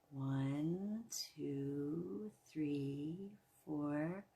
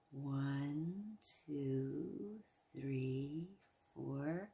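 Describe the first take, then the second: No difference in how they are said.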